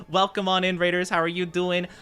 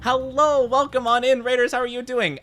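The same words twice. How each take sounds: First: Said in the usual way. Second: Bright, high-pitched hype welcome; high excited greeting. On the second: Shown as a demonstration. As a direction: greet the raiders way up high, full energy.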